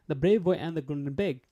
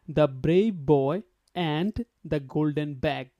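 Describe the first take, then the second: First: The word 'and' is reduced to just 'n'. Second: Every word, including 'and', is said in full. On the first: The speaker calls it right. "if we actually follow the native people" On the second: The speaker calls it wrong. "the way you usually say, word by word"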